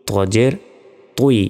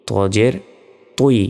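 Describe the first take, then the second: No difference in how they are said.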